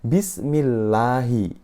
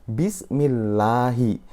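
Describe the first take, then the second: No difference in how they are said.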